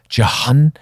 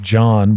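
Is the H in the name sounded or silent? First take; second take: sounded; silent. First: The H is sounded between two vowels. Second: The H is silent in one syllable. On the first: "that spell their name J-O-H-N to be called Jahan" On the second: "proper pronunciation of John, which is J-O-N without an H"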